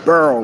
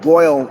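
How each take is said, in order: First: The vowel sounds like the one in 'earl'. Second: The vowel sounds like the one in 'oil'. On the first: This is how the speaker's own group says it. "We burl water" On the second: This is how others say it. "we don't boil water"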